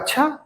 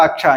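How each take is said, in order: First: It is said with surprise. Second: It is said as agreement.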